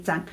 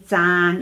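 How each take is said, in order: First: The vowel is short, a single a. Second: The vowel is long, a double a. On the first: This reading is used in two-character words. "for two words we say 爭" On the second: This reading is used when the character stands alone. "in one word uh, we say 爭"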